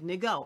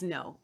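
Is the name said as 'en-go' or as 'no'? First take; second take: en-go; no. First: The name is read letter by letter, en-go. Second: The name sounds like the word no. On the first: The speaker calls it wrong. "I said Ngo. I didn't know how to say it" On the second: The speaker calls it right. "I just looked the pronunciation up. Okay. It's no"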